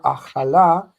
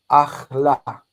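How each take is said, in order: First: Achala said in three syllables, a-cha-LA; achala, he ate her. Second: Achla said in two syllables, ACH-la, middle vowel dropped; achla, she ate. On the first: Teacher contrasts he ate her with she ate, sounding out achala. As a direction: say achala with the middle a kept, ending on a. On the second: Teacher contrasts she ate with he ate her, clipping achla. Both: Shown as a demonstration. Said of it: "Notice the difference between he ate her".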